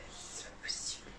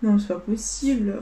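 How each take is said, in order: First: Barely breathed out in a whisper; whispered disbelief. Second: Said in the usual way. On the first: Real, not acted. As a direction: mutter it in a whisper, in shock. (chuchoté, incrédule)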